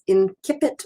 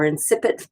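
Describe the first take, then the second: First: It is said with classical Latin pronunciation. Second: It is said with medieval Latin pronunciation.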